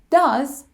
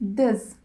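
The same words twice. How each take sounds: First: The word is said in its full form. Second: The word is said in a reduced form.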